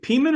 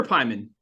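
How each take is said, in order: First: "Peeman" with a long ee in the first syllable; alternative pronunciation. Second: "Pyman" with an eye sound in the first syllable; alternative pronunciation. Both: Shown as a demonstration. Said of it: "is it Peeman or Pyman?".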